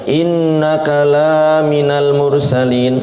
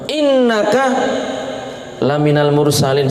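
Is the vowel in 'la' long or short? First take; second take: long; short. First: The vowel in 'la' is drawn out long. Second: The vowel in 'la' is kept short. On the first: You are not a messenger. The speaker calls it wrong. "Lamnya yang pendek dibaca pan panjang" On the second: You are among the messengers. The speaker calls it right. "Itu makna yang benar"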